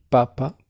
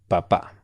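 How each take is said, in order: First: Papa, higher with the first syllable stressed. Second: Papá with the final á stressed; weight on the second syllable of papá; stress on last syllable. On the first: Teacher demonstrating for student, first-syllable stress on Papa. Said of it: "Si está en la primera sílaba el acento". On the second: Teacher contrasting for student, final stress on papá. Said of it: "si está en la última sílaba". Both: Shown as a demonstration.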